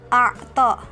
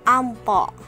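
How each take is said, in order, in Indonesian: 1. Ada ain yang terdengar dari tenggorokan sebelum t. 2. Ada bunyi n sebelum t. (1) "yang bermakna memberi" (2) "dibaca dengan ampo"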